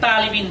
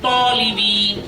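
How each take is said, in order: First: The first vowel sounds like 'a'. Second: The first vowel sounds like 'o'. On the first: The speaker calls it wrong. "অনেকে তালিবিন বলে থাকে" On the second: The speaker calls it right. "তলিবিন হবে"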